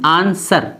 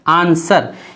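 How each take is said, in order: No difference in how they are said.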